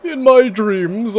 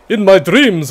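First: Slow, high theatrical vampire. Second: Slow, louder dramatic vampire. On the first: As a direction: intone it like a brooding vampire lord. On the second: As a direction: start the villain monologue in vampire voice. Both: Acted. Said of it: "That was my best vampire voice".

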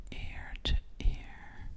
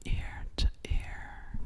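The two takes are said the same way.

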